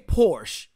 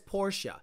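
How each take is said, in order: First: The word is pronounced in the American way. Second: The word is pronounced in a non-American way. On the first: This is the usual way to say the name in the country. The speaker calls it right. "in America, we say Porsche" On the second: Someone else's way of saying the name is being mocked. The speaker calls it wrong. "He says Porsche. Any asshole that says Porsche should not be listened to"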